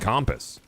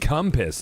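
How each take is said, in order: First: The first vowel sounds like an O. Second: The first vowel sounds like a U. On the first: The speaker says it this way himself. "That is an O sound, not a U sound" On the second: Someone else said it. "I'm not even saying compass"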